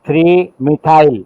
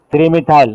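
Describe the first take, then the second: First: Three methyl spelled out slowly, Three drawn out and falling; stress on Three. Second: Said in the usual way. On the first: Shown as a demonstration. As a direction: lean on Three, slow and deliberate. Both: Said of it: "three is correct".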